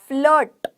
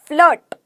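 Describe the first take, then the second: The two takes are said the same way.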